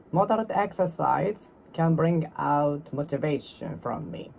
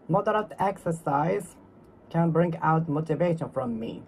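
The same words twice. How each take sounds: The two takes are said the same way.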